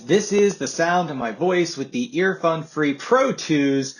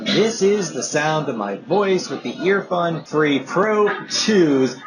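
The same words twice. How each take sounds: First: The voice is heard without background noise. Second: The voice is heard over ambient background noise.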